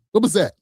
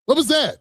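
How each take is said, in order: First: Said in the usual way. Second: Much higher mock disbelief; incredulous. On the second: Shown as a demonstration. Host mocking a book about Obama, incredulous. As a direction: repeat "What was that?" pitched way up in disbelief.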